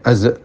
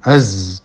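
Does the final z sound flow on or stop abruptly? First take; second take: stops abruptly; flows on. First: The final z is cut off with a catch. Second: The final z flows on without a catch. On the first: The speaker calls it wrong. "jangan sampai az ya" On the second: The speaker calls it right. "apabila za disukun jangan sampai ada suara yang tertahan"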